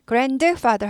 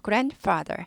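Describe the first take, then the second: First: "grandfather" with the d sounded out as a separate "deu"; "grand-duh-father", d fully released; over-pronounced d. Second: "grandfather" with the d unreleased, like gran-father; "grandfather" with no audible d; silent-sounding d. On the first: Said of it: "grandfather 하지 않고". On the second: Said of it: "단지 잘 안 들릴 뿐". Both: Shown as a demonstration.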